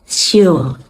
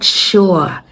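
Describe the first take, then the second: First: The word begins with a very soft s sound. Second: The word begins with a sh sound. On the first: The speaker calls it right. "It's very soft" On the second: The speaker calls it wrong. "Sure has a sh sound"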